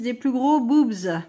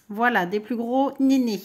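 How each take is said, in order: First: Slow, playful emphasis on "gros boobs", a bit louder; borrowing her son's cheeky word with a grin. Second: Said in the usual way. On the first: Retold or imitated. Mother quoting her son's word to viewers, slow and teasing. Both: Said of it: "comme dirait mon fils".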